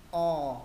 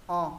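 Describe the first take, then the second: First: Long, louder O with rounded lips; long raised-tongue O. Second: Brief O with jaw slightly dropped; short open O. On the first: Teacher reviews the second O, long and rounded. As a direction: hold O, back of tongue raised. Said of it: "môi vẫn tròn nhưng cứ cũng nâng". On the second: Teacher reviews the first O, short and open. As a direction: say O short, mouth open and round. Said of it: "Chữ O thứ nhất hạ cầm xuống một chút". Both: Shown as a demonstration.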